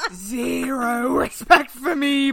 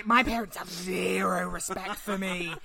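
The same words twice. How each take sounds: First: "Zero respect for me" stretched out, slow, louder; slow emphatic repeat. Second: Said in the usual way. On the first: Shown as a demonstration. Son repeating his complaint, slow and louder. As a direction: drag out "Zero respect for me" for effect.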